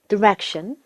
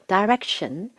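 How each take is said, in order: First: The first syllable sounds like 'dih'. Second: The first syllable sounds like 'die'.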